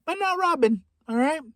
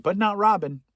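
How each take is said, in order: First: Comic high squeak. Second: Said in the usual way. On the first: Acted. Comedian echoing his own joke to the audience in a high mock voice. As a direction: repeat it much higher, in a mock squeak. Repeats line with comic pitch jump.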